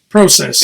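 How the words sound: The word is said with a non-American pronunciation. The speaker calls it right. "Got to be like Paul though. Say process"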